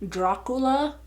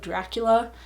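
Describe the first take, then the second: First: It is pronounced the Spanish way. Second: It is pronounced the English way. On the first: "my husband says Dracula ... because it does have that little accent mark above the A" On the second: "instead of Dracula"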